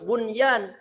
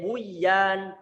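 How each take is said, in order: First: The n sound is pronounced clearly before y. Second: The n sound is merged away and not heard. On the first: The speaker calls it right. "tapi harus" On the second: The speaker calls it wrong. "Nggak boleh"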